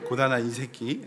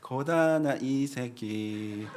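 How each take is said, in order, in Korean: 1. 마지막 단어를 짧게 끊고 뭉개서 발음합니다. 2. 마지막 단어를 끝까지 분명하게 발음합니다.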